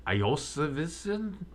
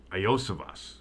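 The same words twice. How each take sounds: First: "Iosivison" said with a puzzled rising guess, extra syllable; fumbled name. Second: "Iosivas" said carefully as eye-OH-suh-vahs, falling and settled; corrected name. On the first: Commentator guessing at a receiver's name, unsure. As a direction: stumble over "Iosivison" like an unsure first try. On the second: Commentator retrying the receiver's name, careful. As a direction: land "Iosivas" cleanly, four syllables, falling at the end. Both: Shown as a demonstration. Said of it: "Let's try this again".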